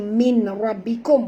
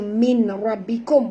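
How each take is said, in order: First: The nun is pronounced as n before ra. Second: The same.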